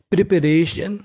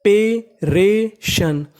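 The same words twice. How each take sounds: First: Said in the usual way. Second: Teacher sounding out "preparation" slowly, each syllable apart. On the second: Shown as a demonstration. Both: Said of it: "तो meaning बनी".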